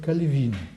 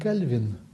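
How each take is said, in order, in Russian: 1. Ударение на последнем слоге. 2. Ударение на первом слоге. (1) "правильнее произносить с ударением на последнем слоге" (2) "это не совсем точно"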